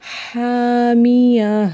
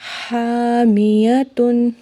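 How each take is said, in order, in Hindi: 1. शब्द का अंत नरम 'h' की आवाज़ से होता है। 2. शब्द का अंत पूरे 'tun' से होता है। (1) "लेकिन साकिन कर रहे हैं तो हामिया" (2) "अगर हम इसे साकिन नहीं करेंगे तो हम पढ़ेंगे हामियतुन"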